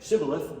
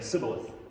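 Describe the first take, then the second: First: It begins with a 'sh' sound. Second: It begins with a hissing 's' sound.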